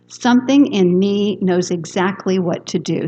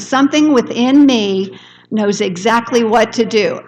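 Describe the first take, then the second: First: It is said calmly, without extra energy. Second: It is said with energy and enthusiasm.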